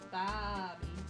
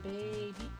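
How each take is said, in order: First: The first vowel sounds like 'ah'. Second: The first vowel sounds like 'ay'. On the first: "I've been kind of pronouncing it as Bobby to get the pun going" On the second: "Instead of baby"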